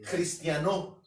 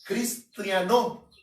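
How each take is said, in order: First: Cristiano spoken as the Greek word, stress on the O; Greek pronunciation. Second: Cristiano said slowly and loudly, stretched out syllable by syllable as the Greek word; teaching the Greek form cristiano, drawn-out and emphatic; Greek pronunciation. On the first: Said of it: "se cambia la C por J y se le pone un acento en la O". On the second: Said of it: "la palabra cristiano en el griego es". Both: Shown as a demonstration.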